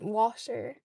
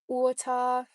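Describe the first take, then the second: First: It is said in a South Dublin Irish accent. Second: It is said in a Trinidadian accent.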